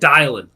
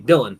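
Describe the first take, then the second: First: The first syllable sounds like 'die'. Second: The first syllable sounds like 'dill'. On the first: The speaker calls it wrong. "like D I E L A N, like Dylan" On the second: The speaker calls it right. "You usually say Dylan"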